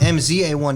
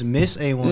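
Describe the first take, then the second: First: The name's letters are spelled out one by one. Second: The first part is said as the word Miss. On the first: The speaker calls it wrong. "it's not M Z A one" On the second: The speaker calls it right. "it's Miss A one"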